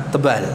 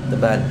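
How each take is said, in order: Both takes have the same delivery.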